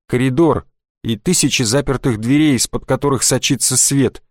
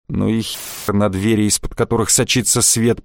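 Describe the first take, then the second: First: Said in the usual way. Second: Low grumbling mockery. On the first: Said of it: "Gottfried's line, plain take". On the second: A narrator's reading. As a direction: grumble it back dismissively. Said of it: "проворчал Штефан".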